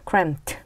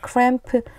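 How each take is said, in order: First: The word ends with a t sound. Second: The word ends with a d sound. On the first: The speaker calls it right. "마지막 소리가 틉니다" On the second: The speaker calls it wrong. "스펠링으로 보면 cramped 이렇게 발음해야 될 것 같은데"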